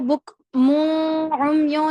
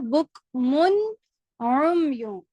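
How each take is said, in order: First: The n sound is dropped before the next word. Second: The n sound is clearly pronounced before the vowel. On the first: The speaker calls it wrong. "मैंने इसको बुक मुम यो नहीं पढ़ा" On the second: The speaker calls it right. "नून को पढ़ा"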